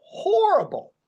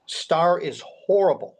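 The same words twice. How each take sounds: First: "horrible" leapt up much higher in pitch; emphatic repeat. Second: Said in the usual way. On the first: Real, not acted. Telling the host how badly Starr played, emphatic "horrible". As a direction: hit "horrible" high and hard the second time.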